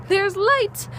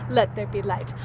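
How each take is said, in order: First: High, happy exclaim; thrilled the light is back; excited. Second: Lower, falling, grand; a hint of a biblical decree; mock solemn proclamation. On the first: Real, not acted. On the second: Mock biblical proclamation after excitement.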